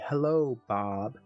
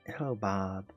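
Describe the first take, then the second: First: It is said with big, wide-open articulation. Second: It is said with tight, barely opened articulation.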